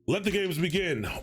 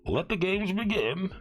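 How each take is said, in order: First: It is said in his normal voice. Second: It is said in an attempted Bane voice.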